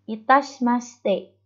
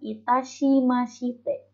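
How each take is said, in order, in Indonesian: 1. Huruf i dalam shi tidak dibaca. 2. Huruf i dalam shi dibaca penuh. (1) "H I-nya nggak dibaca" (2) "bukan itashimashite"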